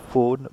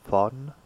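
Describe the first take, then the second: First: The vowel is said closed. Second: The vowel is said open. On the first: The speaker calls it wrong. "It's not phone" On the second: The speaker calls it right. "but phone. ... here we pronounce open"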